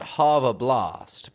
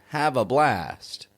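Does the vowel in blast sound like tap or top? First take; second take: top; tap. First: Blast has the open vowel of top. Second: Blast has the front vowel of tap. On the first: The speaker calls it wrong. "Not have a blast" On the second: The speaker calls it right. "but have a blast"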